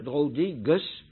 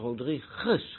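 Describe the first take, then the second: First: The u after the g is pronounced. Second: The gu is said as a plain g. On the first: The speaker calls it wrong. "niet Rodriguez" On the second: The speaker calls it right. "maar Rodriguez, GU is in het Portugees een G"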